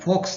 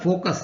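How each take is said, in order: First: The word is said with one syllable. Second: The word is said with two syllables. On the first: The speaker calls it wrong. "ના થાય" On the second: The speaker calls it right. "આનો ઉચ્ચાર ફોકસ થાય"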